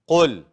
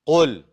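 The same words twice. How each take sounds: The two takes are said the same way.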